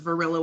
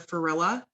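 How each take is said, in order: First: The name begins with a V sound. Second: The name begins with an F sound. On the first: This is the name as it was really spelled. The speaker calls it right. "with a V" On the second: This is how a small child who could not say V said it. The speaker calls it wrong. "I used to say F for V"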